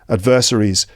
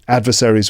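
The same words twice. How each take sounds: First: The word is said with a British pronunciation. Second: The word is said with an American pronunciation. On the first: "British English" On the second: "would be American English"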